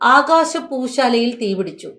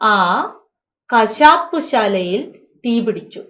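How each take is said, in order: First: It is read straight on without a break after 'aa'. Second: It is read with a pause right after 'aa'. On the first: The sky's building caught fire. The speaker calls it wrong. "നീ ഒന്നുകൂടെ അത് വായിക്കേ" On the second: That slaughterhouse caught fire. The speaker calls it right. "നീ ഒന്ന് നിർത്തി നിർത്തി വായിക്കേ"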